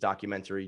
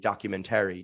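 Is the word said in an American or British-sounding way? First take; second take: American; British-sounding. First: It is said the ordinary American way. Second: It is said the fancy British-sounding way.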